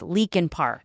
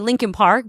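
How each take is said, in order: First: The first syllable sounds like 'leak', with no n. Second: The first syllable has an added n, like 'Lincoln'. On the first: This is how the name is spelled. "but it's Leakin Park" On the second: This is how locals say the name. "If you're from here, you probably say Lincoln Park"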